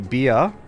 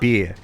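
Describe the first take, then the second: First: The vowel glides from one quality to another. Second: The vowel stays steady without gliding. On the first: "as like a diphthong thing where they change the vowel" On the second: "some people don't do the ah"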